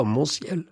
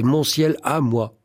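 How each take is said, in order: First: "Mon ciel" said short, without added emphasis at the end; "Mon ciel" stated simply, as if not enough; possessive alone. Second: "à moi" set apart and emphasized; insistent emphasis landing on "à moi"; stress on À MOI. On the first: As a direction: cite "Mon ciel" as the bare phrase. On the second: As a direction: lean on "à moi" to insist on ownership. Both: Shown as a demonstration. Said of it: "Comme si le possessif ne suffisait pas".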